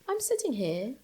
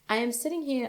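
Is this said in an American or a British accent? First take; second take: British; American. First: It is said in a put-on British accent. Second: It is said in her ordinary American accent.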